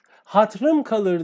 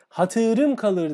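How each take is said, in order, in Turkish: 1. İlk kelimenin ikinci ünlüsü düşer. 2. İlk kelimenin ikinci ünlüsü korunur. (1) "dediğinde yanlıştır" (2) "dediğinde doğrudur"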